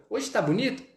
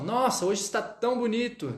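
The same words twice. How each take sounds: First: "Hoje tá bonito" asked on high pitch, rising at the end; questioning intonation. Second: "Nossa, hoje está tão bonito" exclaimed on high pitch; exclamatory intonation. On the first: Teacher showing students a Portuguese question, rising intonation. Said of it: "Vou fazer uma pergunta". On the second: Teacher demonstrating an exclamation in Portuguese, exclamatory. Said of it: "ponto de exclamação". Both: Shown as a demonstration.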